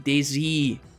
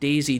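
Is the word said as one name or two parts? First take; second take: two parts; one name. First: It is said as day followed by Z. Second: It runs together like the name Daisy. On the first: The speaker calls it right. "like day, as in night and day. Z" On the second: The speaker calls it wrong. "not Daisy"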